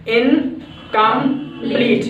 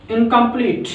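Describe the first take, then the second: First: incomplete slowly split as "इन - कम - pleat"; broken into syllables. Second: Said in the usual way. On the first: Shown as a demonstration. Teacher showing three syllables in incomplete, broken into syllables. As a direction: say incomplete in three drawn-out beats with pauses. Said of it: "there are also three syllables". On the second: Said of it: "अब incomplete बोला".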